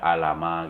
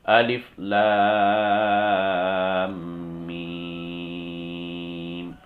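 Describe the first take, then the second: First: The letters are blended into one short word. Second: Each letter is said as its full name. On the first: The speaker calls it wrong. "Tidak dibaca alama gitu ya" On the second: The speaker calls it right. "harus dibaca sesuai dengan sifatnya atau huruf aslinya"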